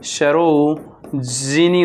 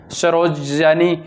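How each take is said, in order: First: सरोजिनी slowly, drawn out as "saro-ji-nee"; correct form shown. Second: सरोजनी said "saroja-ni"; wrong form shown. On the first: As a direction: stretch सरोजिनी with a clear "ji". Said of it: "सरोजिनी होता है". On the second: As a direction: say सरोजनी with "ja" before the "ni". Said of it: "सरोजनी नहीं होता". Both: Shown as a demonstration.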